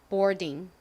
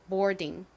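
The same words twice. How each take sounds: Both takes have the same delivery.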